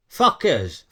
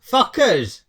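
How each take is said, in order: First: Said in the usual way. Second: Higher, repeated so she hears it; called out again. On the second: Real, not acted. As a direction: say it again for someone who missed it. Repeating word for someone who asked.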